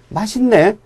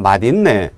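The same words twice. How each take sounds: First: It uses the younger generation's pronunciation. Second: It uses the older generation's pronunciation. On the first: This is how young people say it today. "지금의 젊은 청장년층은 맛있네, 맛있다 이렇게만 말합니다" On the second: This is how older people still say it. "나이 드신 분들은 지금도 아, 참 맛있네"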